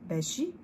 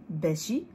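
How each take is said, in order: Both takes have the same delivery.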